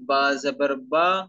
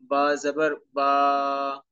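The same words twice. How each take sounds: First: The final vowel is short and smooth. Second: The final vowel is stretched out long. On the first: The speaker calls it right. "ना इनकी आवाज लंबी हो और ना ही इनमें झटका हो, बल्कि मारूफ पढ़ेंगे" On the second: The speaker calls it wrong. "इसको आपने लंबा भी नहीं करना, मतलब ऐसे नहीं पढ़ना"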